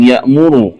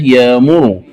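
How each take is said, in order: First: Said in the usual way. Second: يأمر said "yaamuru"; long aa in يأمر, no glottal stop; hamza as alif. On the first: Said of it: "قرأها بإبدال". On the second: Shown as a demonstration. Teacher showing the variant, يأمر without hamza. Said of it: "الهمزة ألفا مادية".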